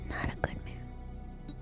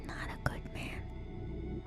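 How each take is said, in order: Both takes have the same delivery.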